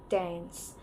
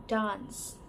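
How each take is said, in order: First: "dance" with the flat A of cat; American dance. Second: "dance" with a long open A as in father; British dance. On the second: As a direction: say "dance" as "dahns". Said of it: "often pronounced as A in the father". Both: Shown as a demonstration.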